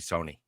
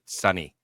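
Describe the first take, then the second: First: The first vowel sounds like the one in 'so'. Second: The first vowel sounds like the one in 'sun'. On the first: The speaker calls it right. "it's supposed to be Sony" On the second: The speaker calls it wrong. "You're not supposed to pronounce it Sunny"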